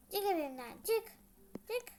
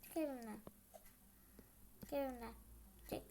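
First: Angry order. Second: Quiet order. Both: Acted.

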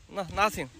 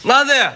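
First: "nothing" said much softer, falling; soft coaxing. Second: Loud call of "Nothing". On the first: Shows kids hands are empty again. (轻声哄着说“nothing”，语调下降) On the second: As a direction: call "Nothing" out loud and falling to show empty hands. Shows kids hands are empty. (大声喊“Nothing”，语调下降) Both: Real, not acted.

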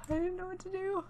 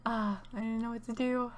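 First: High panicked squeak. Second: Said in the usual way. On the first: Real, not acted. Repeats line, escalating panic.

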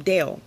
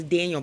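First: "Dale" for Daniel, said as one syllable; Daniel contracted to "Dale"; Daniel run together. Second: Said in the usual way. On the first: Shown as a demonstration. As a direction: swallow the middle of Daniel, "Dale". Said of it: "'cause I say it so fast". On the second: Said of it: "I'm calling him Daniel".

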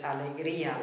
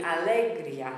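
First: "alegría" as a-le-GREE-a; accented i. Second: "alegría" stressed on LE, a-LEG-ria; misplaced stress. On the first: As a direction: stress GREE in "alegría", with a separate final a. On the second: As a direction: punch LE and glide "ria" into one syllable in "alegría". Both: Shown as a demonstration. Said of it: "If the accent wasn't there".

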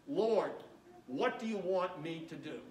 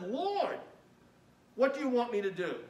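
First: Humble. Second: Trembling and astonished. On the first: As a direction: ask humbly, surrendering. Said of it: "notice his humility". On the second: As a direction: beg in astonished alarm. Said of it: "trembling and astonished". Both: Acted.

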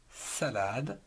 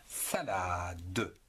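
First: Said in the usual way. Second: "Salade" drawn out and low, final e sounded as a separate "de"; syllable by syllable. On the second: Shown as a demonstration. Teacher showing three syllables, "Salade" stretched with the final "de" voiced. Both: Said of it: "En trois syllabes".

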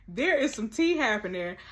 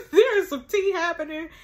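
First: Said in the usual way. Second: High, loud, excited announcement; gleeful gossip. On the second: Real, not acted. Telling viewers about the juicy drama, high excited glee. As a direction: burst it out after the laugh.

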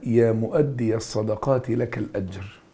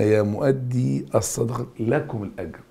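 First: مؤدي ends in a short "a", mu'addiya, linked onward; singular vocative reading. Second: مؤدي ends in a long "ee", mu'addee, no final "a"; plural vocative reading. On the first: Teacher shows students one person addressed, مؤدي ending "-iya". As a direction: say مؤدي as mu'addiya with a clear final fatha. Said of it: "يكلم واحد". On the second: Teacher contrasts the plural for students, مؤدي ending in long "ee". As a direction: say مؤدي as mu'addee before الصدقات. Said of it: "هنا". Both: Shown as a demonstration.

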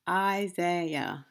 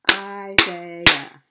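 First: Said in the usual way. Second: Isaiah in three loud beats, I-sai-ah; Isaiah broken into three counted parts; syllable by syllable. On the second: Shown as a demonstration. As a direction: punch out each syllable of Isaiah. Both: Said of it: "how many parts a word can be broken into".

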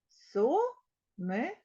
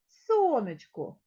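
First: Сонечко drawn out as Со-не-чко; slow it right down, syllable by syllable; slow syllable split. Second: Said in the usual way. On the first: Shown as a demonstration. Teacher spelling out syllables for the class. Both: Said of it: "Три склади".

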